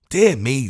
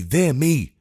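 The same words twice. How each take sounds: First: Put-on a touch of a testy old official; mildly irritated sigh of a phrase; tetchy Lord Mayor grumbling. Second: The testy sigh said again, falling; tetchy Lord Mayor repeating himself. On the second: Acted. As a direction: grumble it once more. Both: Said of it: "replied a testy voice".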